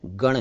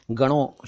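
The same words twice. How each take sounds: First: गण ending on retroflex n; correct bare ending. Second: गणों with nasal -on; mistaken plural ending. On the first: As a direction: say गण with no final o. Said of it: "गण ही काफ़ी है". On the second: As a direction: say गणों with an added o. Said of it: "गणों शब्द ठीक नहीं है". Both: Shown as a demonstration.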